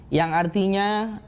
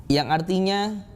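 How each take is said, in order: The two takes are said the same way.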